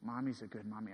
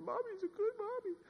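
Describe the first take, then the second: First: Put-on low, soft quote of a small child; subdued retelling of a daughter's answer; retold child's reply. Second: Put-on very high, soft little-girl voice; imitating a child in a high falsetto; four-year-old daughter. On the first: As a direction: say it quietly, voice dropped. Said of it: "and she said". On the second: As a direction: squeak it like a small child protesting. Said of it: "She said".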